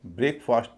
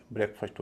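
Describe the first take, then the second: First: ब्रेकफास्ट as "brayk-faast"; full separate vowels. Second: ब्रेकफास्ट as "brek-fust"; reduced vowels. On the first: Teacher showing the unreduced form, ब्रेकफास्ट as "brayk-faast". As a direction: keep both vowels long in ब्रेकफास्ट. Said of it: "ब्रेकफास्ट भी ना होके". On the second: Teacher showing the correct form, ब्रेकफास्ट as short "brek-fust". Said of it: "ब्रेकफास्ट हो जाएगा". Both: Shown as a demonstration.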